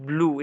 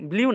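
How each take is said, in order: First: The vowel is a plain oo sound. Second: The vowel has a y glide before oo. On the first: The speaker calls it right. "এটা হচ্ছে ব্লু" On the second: The speaker calls it wrong. "ব্লিউ না"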